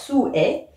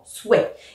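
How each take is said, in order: First: The word is split into two syllables. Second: The word is said as one syllable. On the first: This is the poetic reading. "dans mes textes je vais avoir sou est" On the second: This is the everyday reading. "comme dans le langage courant souhait"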